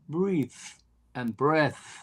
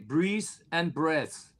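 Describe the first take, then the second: First: The th sounds are said as real th. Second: The th sounds come out like s sounds. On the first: This is how the others said it. "Then they said" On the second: This is how a German speaker says it. "as a German, you say"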